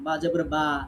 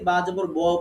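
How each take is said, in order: First: The final vowel is open and clear, like a. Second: The final vowel is dark and rounded, like o. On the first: The speaker calls it right. "মুখটা ফাঁকা থাকবে, এটা হচ্ছে পাতলা" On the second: The speaker calls it wrong. "এটা মোটা হলো, এটা সঠিক হলো না"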